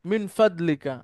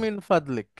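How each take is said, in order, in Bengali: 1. শেষের স্বরধ্বনিটি উচ্চারিত হয়। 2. শেষের স্বরধ্বনিটি বাদ যায়।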